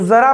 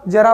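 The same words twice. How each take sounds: First: The word begins with a z sound. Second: The word begins with a j sound. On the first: It means a little. "अरबी फारसी के प्रभाव से है, इसका मतलब इसको उच्चारित करते हैं जरा नाम से" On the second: It means old age. "जरा मतलब बुढ़ापा"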